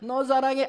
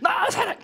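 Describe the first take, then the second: First: It is said louder than before. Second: It is shouted at full volume.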